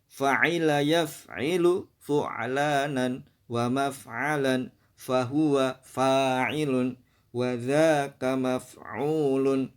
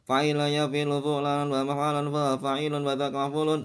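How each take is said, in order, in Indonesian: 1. Dibaca dengan lambat, setiap suku kata terdengar jelas. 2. Dibaca dengan cepat, suku katanya saling menyambung. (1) "Makanya kita perlu pelan-pelan" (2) "kalau kita sekedar membaca ... nah itu nanti kita menyeret"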